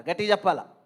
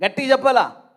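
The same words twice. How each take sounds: First: Said in the usual way. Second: Raised, higher call for an answer; loud, high prompt to the crowd; loud urging. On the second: Real, not acted. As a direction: push the congregation to speak up, loudly. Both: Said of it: "కొంచెం గట్టిగా చెప్పండి".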